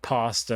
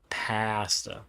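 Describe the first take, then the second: First: Pasta is said the common way. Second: Pasta is said the Canadian way. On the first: "pronounced pasta to most people" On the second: "I'm Canadian. I pronounce it pasta"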